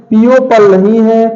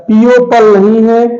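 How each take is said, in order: Both takes have the same delivery.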